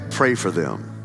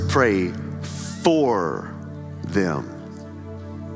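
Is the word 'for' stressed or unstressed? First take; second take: unstressed; stressed. First: The word 'for' is not stressed. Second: The word 'for' is stressed. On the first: The prayer is really a wish for harm. The speaker calls it wrong. "A lot of times you say" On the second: The prayer is on their behalf. The speaker calls it right. "Not pray against them"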